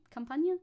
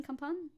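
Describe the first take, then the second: First: "Campagne" with an added ending, kam-PAN-yuh; questioning "Campagne", ending in -nyuh; trying another pronunciation. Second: "Campagne" as two syllables, kam-PAHN; questioning "Campagne", no vowel after the n; French pronunciation. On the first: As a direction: try "Campagne" as three syllables, rising. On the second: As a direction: try "Campagne" ending on a plain n. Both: Shown as a demonstration. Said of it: "Is that the name of the region?".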